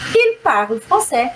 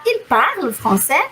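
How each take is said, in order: First: It has statement intonation. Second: It has question intonation.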